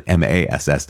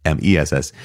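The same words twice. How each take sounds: First: Spelling out "M A S S", one letter at a time; spelled M A S S. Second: Spelling out "M E S S", one letter at a time; spelled M E S S. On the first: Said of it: "not E-, M E S S". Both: Shown as a demonstration.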